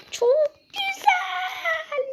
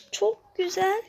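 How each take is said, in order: First: "Çok güzel" whined very high and slow, half sobbing; mock crying. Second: Said in the usual way. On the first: Real, not acted. Gamer to viewers after failing again, mock-sobbing "Çok güzel". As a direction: drag out "güzel" like he's about to cry. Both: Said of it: "Ağlayacağım ya".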